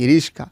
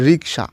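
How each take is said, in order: First: The k sound comes after the s sound. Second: The k sound comes before the s sound. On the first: The speaker calls it wrong. "রিস্কা বলে নাকি" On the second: The speaker calls it right. "সাধারণত শুদ্ধ রূপ হচ্ছে রিক্সা"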